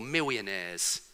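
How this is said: The middle consonant sounds like a W.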